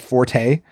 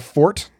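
First: It has two syllables with the E sounded. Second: It has one syllable with a silent E. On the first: It is the musical term. The speaker calls it wrong. "So you don't say the E. It's not forte" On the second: It means a person's strength. The speaker calls it right. "the E is silent"

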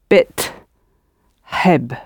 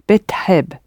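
First: The word is said slowly in two separate parts. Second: The word is said fast with the vowel dropping out.

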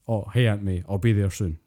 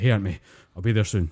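First: The voice is calm and relaxed. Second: The voice is tense and effortful. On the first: He is just walking around at a normal pace. "There'll be the normal way to say it" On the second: He is putting effort into swinging. "there's a little bit more stress in the voice"

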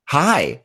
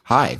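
First: The greeting sounds overly cheerful and exaggerated. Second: The greeting sounds flat and gloomy.

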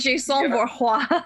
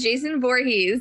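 First: The name is pronounced the French way. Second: The name is pronounced the plain English way. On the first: "if he was French, he'd be Jason Voorhees" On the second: "his name is Jason Voorhees"

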